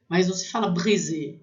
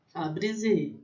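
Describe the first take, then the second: First: Brisé with a French throaty r; wrong pronunciation. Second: Brisé with a tapped Brazilian r; Brazilian pronunciation. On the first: Teacher showing students the r not used in brisé. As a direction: give brisé the guttural French r. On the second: Teacher showing students how brisé is said in Brazil. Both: Shown as a demonstration. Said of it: "vou falar a pronúncia correta".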